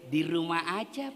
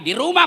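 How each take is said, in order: First: It is said in a soft, sultry, drawn-out voice. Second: It is said in a firm, plain, businesslike voice.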